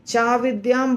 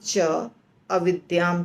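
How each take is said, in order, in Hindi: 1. दोनों शब्द मिलकर एक हो जाते हैं। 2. दोनों शब्द अलग-अलग बोले जाते हैं। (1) "चा विद्याम बोल सकते हैं" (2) "हम इसको अलग कर सकते हैं"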